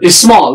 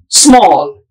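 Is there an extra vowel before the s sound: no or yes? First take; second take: yes; no. First: An extra vowel sound comes before the s. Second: The word starts directly with the s sound. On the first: The speaker calls it wrong. "As if it is I S M A L L" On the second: The speaker calls it right. "Its pronunciation is small. The initial sound is S"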